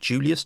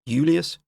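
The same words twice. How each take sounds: First: The name begins with a J sound. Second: The name begins with a Y sound. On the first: This is how the name is said today. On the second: This is how the Romans said the name.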